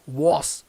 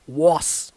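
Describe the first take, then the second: No difference in how they are said.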